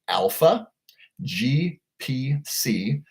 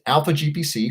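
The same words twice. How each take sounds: First: It is said slowly. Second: It is said at normal speed.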